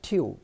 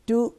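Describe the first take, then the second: First: It is said with a 'yoo' glide, like 'tyoo'. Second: It is said as a plain 'too'. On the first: The speaker calls it right. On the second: The speaker calls it wrong.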